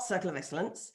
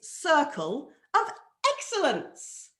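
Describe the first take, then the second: First: The words are run together and mumbled. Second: Each word is said clearly and distinctly. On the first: The speaker calls it wrong. "It's not" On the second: The speaker calls it right. "enunciate that very, very clearly"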